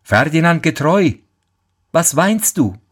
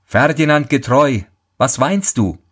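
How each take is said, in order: First: Higher, calling from behind; lightly raised call; calling again. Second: Calling out. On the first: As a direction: call out to him, unseen. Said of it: "Da ruft es wieder". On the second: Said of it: "Plötzlich rief jemand hinter ihm". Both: Acted.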